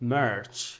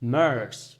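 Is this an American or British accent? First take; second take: American; American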